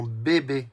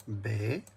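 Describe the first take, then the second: First: Said in the usual way. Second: "Bé-bé" as two isolated syllables, long pause between. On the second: Shown as a demonstration. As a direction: count out "Bé-bé" one beat at a time. (« Bé-bé » découpé en deux syllabes bien séparées) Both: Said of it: "compte les syllabes".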